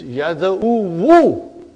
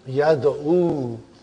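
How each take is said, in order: First: The word ends with an added 'wu' syllable. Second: The word ends after the 'u' vowel. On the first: This is the full underlying form, not normally said. The speaker calls it wrong. "But actually it is Yad'u Wu" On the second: This is the form actually used in speech. The speaker calls it right. "how I say the A?"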